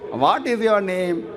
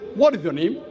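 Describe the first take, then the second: First: It is said in a South Indian accent. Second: It is said in an English accent.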